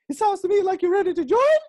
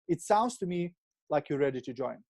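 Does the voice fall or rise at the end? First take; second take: rise; fall. First: It ends rising, like a question. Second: It ends falling, like a statement.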